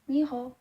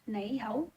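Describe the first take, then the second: First: It is spoken with Nantong dialect pronunciation. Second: It is spoken with Cantonese pronunciation. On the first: "for my hometown Nantong dialect" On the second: "for Cantonese"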